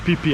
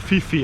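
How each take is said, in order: First: The name is said the way locals say it. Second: The name is said the way tourists say it. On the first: The speaker calls it right. "the locals call it uh, Phi Phi Islands" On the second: The speaker calls it wrong. "tourists usually spell as uh, Phi Phi Islands, but uh, it is not"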